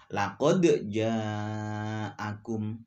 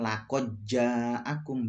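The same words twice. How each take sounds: First: The d is released clearly with a bounce. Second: The d merges into the following sound. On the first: The speaker calls it right. "harus dibaca qalqalah" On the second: The speaker calls it wrong. "Bukan diidghamkan"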